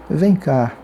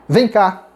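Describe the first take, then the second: First: Gentle summons. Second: Higher-pitched order "Vem cá"; sharp command. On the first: Teacher contrasting tones, "Vem cá" as a mild invitation. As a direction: invite someone over calmly. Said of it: "O tom de voz muda tudo". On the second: Teacher showing tone changes meaning, "Vem cá" as a sharp summons. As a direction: summon someone abruptly, pitched up. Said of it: "O tom de voz pode mudar tudo". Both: Shown as a demonstration.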